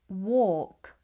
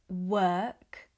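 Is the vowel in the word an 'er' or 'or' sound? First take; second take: or; er. First: The vowel is an 'or' sound. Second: The vowel is an 'er' sound. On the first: The speaker calls it wrong. "These words are not pronounced with an or sound. It's not" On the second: The speaker calls it right. "It's more of an er sound. We would say"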